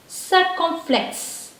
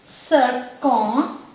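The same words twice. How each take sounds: First: Circumflex slowly but in one piece; joined-up word. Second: Circumflex drawn out slowly in separate pieces; syllable by syllable. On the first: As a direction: say circumflex whole, slow and higher. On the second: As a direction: break it up, "sir-kon ... flex", with pauses. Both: Shown as a demonstration. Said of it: "this is called".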